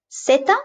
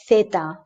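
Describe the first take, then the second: First: Zeta said with an S; Latin American S. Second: Zeta said with TH as in theater; Spain's TH. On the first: Teacher showing Latin American zeta with an S sound. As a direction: start zeta with S, pitched up. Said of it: "they pronounce it like an S". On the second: Teacher showing how Spain says zeta with TH. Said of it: "that's a T H in theater". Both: Shown as a demonstration.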